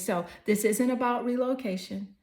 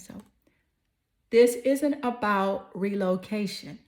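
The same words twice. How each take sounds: First: It is said at a normal pace. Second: It is said more slowly.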